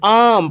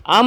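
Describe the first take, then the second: First: आम dengan a panjang yang ditarik; long drawn aa. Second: आम dengan a pendek, tidak ditarik; short clipped a. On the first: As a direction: stretch the आ in आम long. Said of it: "आम पढ़ते हैं". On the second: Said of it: "आम नहीं पढ़ते हैं". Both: Shown as a demonstration.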